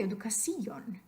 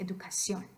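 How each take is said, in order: First: Educación with the stress wrongly on the i, edu-ca-SÍ-on; educación mis-stressed as educaCÍon. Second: Educación stressed on the final -ción; educación said correctly, the o carrying the stress. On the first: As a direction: punch the "ci" of educación as its own syllable. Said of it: "if you put it over the I". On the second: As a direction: land educación on its last syllable, edu-ca-CIÓN. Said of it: "accent mark goes over the O". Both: Shown as a demonstration.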